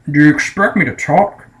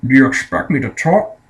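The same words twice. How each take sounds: First: A hint of a suave Scottish spy, said once more; lightly voiced Bond, questioning rise; Sean Connery impression. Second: A hint of a suave Scottish spy; lightly voiced Bond, questioning rise; Sean Connery impression. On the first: Reviewer repeating Bond's famous line, light Connery impression. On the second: Reviewer quoting Bond's famous line, light Connery impression. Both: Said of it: "And Sean Connery goes".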